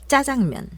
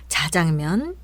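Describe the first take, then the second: First: The first consonant is tense and hard. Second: The first consonant is plain and soft. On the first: The speaker calls it right. "이제 된소리로 해보겠습니다" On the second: The speaker calls it wrong. "듣기에 어색한 발음들"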